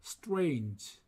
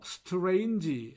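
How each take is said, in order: First: It is said as a single syllable without vowels. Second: Extra vowels are inserted, giving several syllables. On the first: The speaker calls it right. "이 모음 없이 단음절로 발음합니다" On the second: The speaker calls it wrong. "오음절로 발음합니다만"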